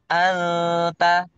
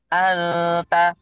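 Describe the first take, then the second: First: The n is hidden in a short, light nasal hum. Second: The same.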